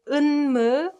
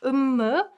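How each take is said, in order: First: The sound before the m is an n. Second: The sound before the m is an m. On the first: "either you pronounce it 은무" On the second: "or 음무"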